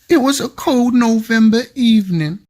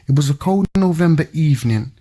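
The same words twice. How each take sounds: First: It is read in a put-on voice. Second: It is read in his normal voice.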